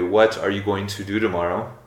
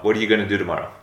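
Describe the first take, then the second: First: It is said slowly with every word clear. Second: It is said quickly with words reduced and linked.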